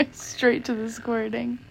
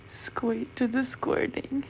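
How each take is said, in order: First: Laughing as she fixes "Straight to the squirting"; laughing correction. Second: "squeak" slurred slowly instead of "straight"; slow stumble saying "squeak to the squirting"; misspoken. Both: Real, not acted.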